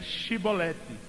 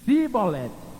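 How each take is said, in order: First: The word begins with an 'sh' sound. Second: The word begins with an 's' sound. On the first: This is the test word as it should be said. The speaker calls it right. "Então você diga Shibolete" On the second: The speaker gives himself away as an outsider. The speaker calls it wrong. "só pronunciam S"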